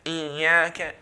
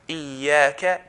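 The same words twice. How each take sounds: First: The stretched vowel is nasalized through the nose. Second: The stretched vowel is oral, with no nasal sound. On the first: The speaker calls it wrong. "then I'm producing a nasalization sound when I'm stretching it" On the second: The speaker calls it right. "there's no nasalization sound"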